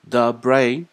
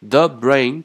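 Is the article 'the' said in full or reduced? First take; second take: reduced; full. First: The article is said weakly and reduced. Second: The article is said fully and stressed. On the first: The speaker calls it right. "一定要念the brain" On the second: The speaker calls it wrong. "咱们不能念the brain"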